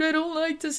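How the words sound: It sounds scared and lingering.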